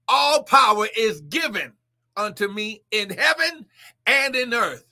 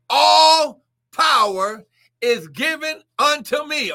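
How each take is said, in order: First: Said in the usual way. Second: Slow, higher and louder, drawn out; booming Jesus quote. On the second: Acted. Preacher to congregation, voicing Jesus in a slow booming proclaim. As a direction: proclaim it as Christ's own words.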